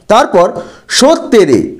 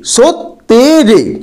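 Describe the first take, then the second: First: Said in the usual way. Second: সত্যেরে said slowly as সৎ-তে-রে, each syllable apart. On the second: Shown as a demonstration. Teacher contrasting a normal read with a syllable split. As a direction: stretch সত্যেরে into separate syllables. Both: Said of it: "এখানে সৎ শব্দটি হলো রুদ্ধ দল".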